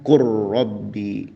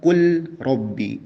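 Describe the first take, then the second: First: The L merges into a doubled R sound. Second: The L is pronounced clearly before the R. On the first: The speaker calls it right. "meleburkan huruf lam tersebut" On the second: The speaker calls it wrong. "lamnya dijelaskan, izhar ya"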